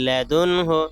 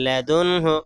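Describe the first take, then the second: The two takes are said the same way.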